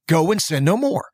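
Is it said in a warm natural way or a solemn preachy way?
warm natural. It is said in a warm, natural, human way.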